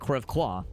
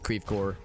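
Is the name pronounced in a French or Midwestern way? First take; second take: French; Midwestern. First: The name has a French pronunciation. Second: The name has an anglicized Midwestern pronunciation. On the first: This is how French speakers would expect it. "for those who are French-speaking uh, natives" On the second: This is how locals say it. "it is indeed pronounced Creve Coeur. The locals will correct you"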